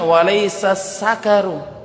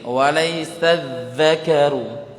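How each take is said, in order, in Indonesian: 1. Konsonannya bunyi 's' desis biasa. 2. Konsonannya bunyi 'th', lidah di antara gigi. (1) "bukan walaysa sakaru" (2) "dza ujung lidah itu dikeluarkan ya sedikit"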